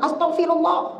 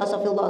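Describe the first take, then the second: First: It is said in an annoyed tone. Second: It is said quickly, like counting.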